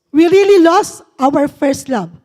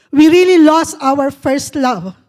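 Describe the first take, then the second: The two takes are said the same way.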